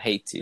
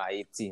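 First: The name is said in its usual English form. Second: The name is said in its native Haitian form. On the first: This is a distorted form of the original name. The speaker calls it wrong. "It's a slur of the original name" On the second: This is the original name given by the natives. The speaker calls it right. "Haiti is the original name that the natives have gave it"

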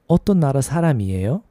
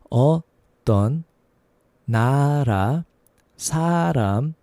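First: It is said quickly. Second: It is said slowly.

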